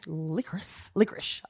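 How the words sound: The word is said in a jokey, humorous way.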